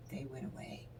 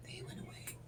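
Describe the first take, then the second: First: Said in the usual way. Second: Breathy whispered repeat of "They went away"; hushed whispered repeat; whispered echo. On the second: Shown as a demonstration.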